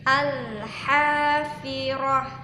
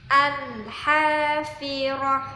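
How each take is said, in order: The two takes are said the same way.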